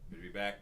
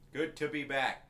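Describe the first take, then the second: First: It is said at a quieter volume. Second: It is said at a louder volume.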